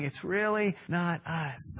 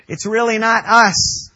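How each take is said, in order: First: "It's really not us" dropped soft and slow, "really" leaned on; soft, slow repeat. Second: Louder, higher punch on "It's really not us"; emphatic declaration. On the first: Preacher repeats the point to the church, soft and slow. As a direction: let the line settle quietly. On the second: Preacher insists to the church, loud and emphatic. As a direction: drive "us" home to the room. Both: Shown as a demonstration.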